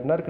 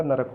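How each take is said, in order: First: नर्क as one syllable, "nark"; wrong one-syllable form. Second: नरक as "na-rak"; two-syllable form. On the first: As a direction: run r and k together in नर्क. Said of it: "नरक होता है". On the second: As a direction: put a vowel between r and k in नरक. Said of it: "नर्क नहीं होता". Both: Shown as a demonstration.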